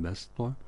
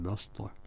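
First: The first consonant is a plain s sound. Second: The first consonant is an emphatic s sound. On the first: "بالسين" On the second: "بالصاد"

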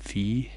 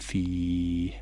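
First: The vowel before the final h is short. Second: The vowel before the final h is drawn out.

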